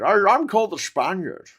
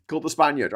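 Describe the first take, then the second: First: Loud, higher Scottish impression with slurred s; hammed-up Scottish star claiming to be Spanish; Sean Connery. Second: Said in the usual way. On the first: Scottish actor introduces himself as the Spaniard, mock-grand slurred accent. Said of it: "most outrageous one for Sean Connery". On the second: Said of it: "when he played an Egyptian called the Spaniard".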